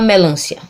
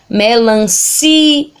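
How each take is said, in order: First: The 'i' sound is weak and unstressed. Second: The 'i' sound is strong and stressed. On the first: The speaker calls it wrong. "A gente não fala melancia" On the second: The speaker calls it right. "eu observo que o I também é forte"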